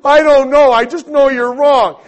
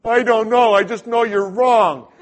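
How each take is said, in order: First: Much louder, much higher frustrated yell; angrier outburst. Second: Loud, higher, stubborn retort; defensive outburst. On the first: Cornered by the elder, frustrated yell. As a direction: yell it as you lose the argument. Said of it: "And I". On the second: Arguing with the elder, loud stubborn retort. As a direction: dig in and shout him down. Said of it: "And I'm going". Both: Retold or imitated.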